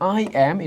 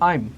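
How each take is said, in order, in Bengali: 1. দুটি আলাদা শব্দ পুরোপুরি বলা হয়। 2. শব্দ দুটো জুড়ে একটি একক উচ্চারণে বলা হয়। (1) "যেমন আই অ্যাম" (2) "এটাকে আমরা একসাথে বলবো"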